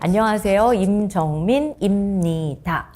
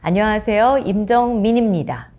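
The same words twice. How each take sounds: First: The syllables are kept separate as written. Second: The syllables are linked together smoothly. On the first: This is how it is written. "라고 씁니다. 글로는" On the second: This is how it is spoken. "근데 말할 때는요"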